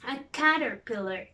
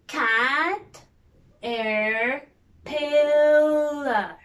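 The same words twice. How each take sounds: First: Said in the usual way. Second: Cat-er-pillar, each part apart, last one loud; split into syllables. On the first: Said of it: "what about this one". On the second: Shown as a demonstration. Teacher showing kids the syllables, loud. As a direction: break caterpillar into pieces. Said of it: "Let's see".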